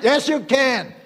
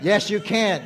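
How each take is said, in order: First: Emphatic reply. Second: Said in the usual way. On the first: Acted. God insisting back at the believer, emphatic. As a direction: punch "Yes" up hard. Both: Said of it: "And God's saying".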